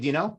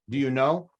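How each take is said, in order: First: The words are shortened and run together. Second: Each word is said fully and separately. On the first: This is how people casually speak. "But we say" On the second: This is the formal textbook form. "if we were in a textbook"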